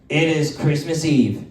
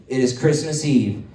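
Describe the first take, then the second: The two takes are said the same way.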